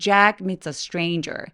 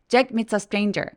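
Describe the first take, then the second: First: The vowels are long, drawn out and relaxed. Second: The vowels are short and clipped. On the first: The speaker calls it right. "굉장히 길게 혹은 이중모음으로 소리가 나기 때문에 여유롭게" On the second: The speaker calls it wrong. "아니고"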